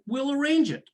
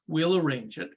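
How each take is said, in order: First: Much higher-pitched parroted agreement; high, compliant repeat of someone's order; obedient echo. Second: Said in the usual way. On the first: Retold or imitated. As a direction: echo the instruction in a raised voice. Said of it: "And I said". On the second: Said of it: "And Pam says".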